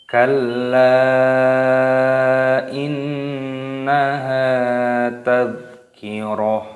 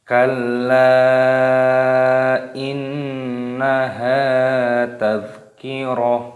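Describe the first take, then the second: Both takes have the same delivery.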